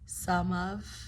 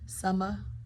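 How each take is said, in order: First: Both words are said fully and separately. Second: The words blend into a reduced 'summa'.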